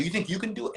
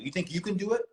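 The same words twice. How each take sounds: First: High mocking taunt; taunting dare. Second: High, mocking, provoking; taunting dare. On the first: Teasing his boxer friend with a high mocking dare. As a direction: goad him with a high teasing challenge. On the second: Daring Mike to jump in, high and mocking. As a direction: poke the bear with a high sing-song dare. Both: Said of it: "I went like this to him".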